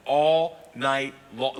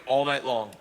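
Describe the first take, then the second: First: "All night long" stretched out word by word; half-speed emphatic repeat of "All night long"; drawn-out emphasis. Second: Said in the usual way. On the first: Real, not acted. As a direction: dwell on "All", slow every word.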